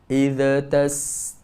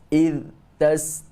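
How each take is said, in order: First: An extra vowel bounce follows the first word. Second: The voice stops abruptly after the first word. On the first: "bila dia menjadikan huruf zal itu tawallud" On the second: "putus getah suara ... terhenti suara"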